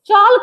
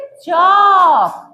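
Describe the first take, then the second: First: The L sound is pronounced. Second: The L sound is silent. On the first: The speaker calls it wrong. "चौल्क नहीं पढ़ेंगे" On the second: The speaker calls it right. "इसको पढ़ेंगे चौक"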